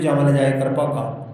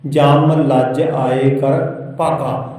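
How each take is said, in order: First: It is read quickly with the words run together. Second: It is read slowly with small breaks between words.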